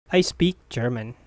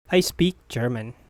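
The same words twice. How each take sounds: The two takes are said the same way.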